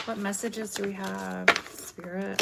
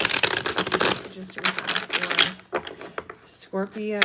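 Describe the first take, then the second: First: Said in the usual way. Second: Whispered question to Spirit; hushed whisper asking Spirit for messages. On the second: Shown as a demonstration. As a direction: breathe the question out, voiceless.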